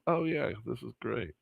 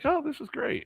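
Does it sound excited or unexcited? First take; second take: unexcited; excited. First: It is said flatly, without excitement. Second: It is said with genuine excitement.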